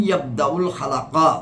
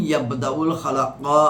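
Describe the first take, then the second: Both takes have the same delivery.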